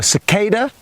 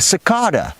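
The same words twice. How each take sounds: First: It is said with an American pronunciation. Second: It is said with a non-American pronunciation.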